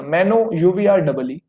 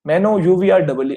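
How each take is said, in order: First: "मैनो, यू वी आर, डबल ई" with a beat between the three parts, last part dropping; spelled in chunks. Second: Three chunks, pause after each; spelled in chunks. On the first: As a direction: split "मैनो" / "यू वी आर" / "डबल ई" with clear pauses. ("मैनो, यू वी आर, डबल ई" तीन हिस्सों में रुक-रुक कर) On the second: ("डबल ई" नीचे गिरती आवाज़ में, बाकी ऊपर) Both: Shown as a demonstration. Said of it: "तीन पार्ट में आपने ब्रेक कर दिया".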